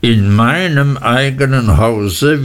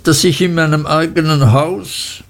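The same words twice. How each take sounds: First: A husband pointedly repeating; cold correction. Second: Lightly raised, hesitant wife; a wife half-daring to complain; timid mother, higher. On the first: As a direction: set her right with cool weight. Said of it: "wiederholte Mister Murdstone". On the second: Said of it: "sagte meine Mutter". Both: A narrator's reading.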